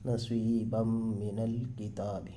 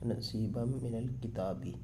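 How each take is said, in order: First: The last word ends on a consonant. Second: The last word ends on a short i vowel.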